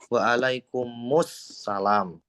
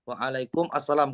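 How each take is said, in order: First: The two words are run together into one. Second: The two words are said separately.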